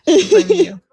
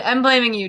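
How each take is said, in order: First: Higher and louder, hammed-up blame; mock accusing shout. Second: Said in the usual way. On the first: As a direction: point the finger in play, loud. Mock blame, then repeated louder.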